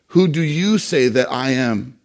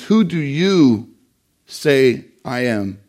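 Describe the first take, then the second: First: Said in the usual way. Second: Slow, with "you" pressed and a pause after it; stress on YOU. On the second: Shown as a demonstration. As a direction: lean hard on "you", then let "say I am" drop. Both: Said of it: "the Greek emphasis there is on the word you".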